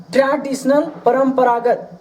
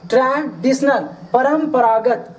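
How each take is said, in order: Both takes have the same delivery.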